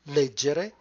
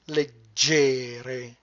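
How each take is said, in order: First: The stress is on the first syllable. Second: The stress is on the second syllable. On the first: It is the verb meaning to read. "If it goes on the first, it will be leggere" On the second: It is an adjective meaning lightweight. "On the second, leggere"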